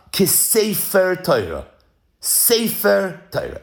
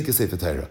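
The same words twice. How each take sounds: First: Slow, with "sefer" drawn out and set apart; stress on sefer. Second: Said in the usual way. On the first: Shown as a demonstration. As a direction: lean hard on "sefer", measured. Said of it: "Emphasis on sefer". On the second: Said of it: "It doesn't say".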